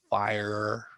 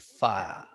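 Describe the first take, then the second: First: It is said in an American accent. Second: It is said in an English accent. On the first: "Americans would say fire" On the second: "he'll say fire"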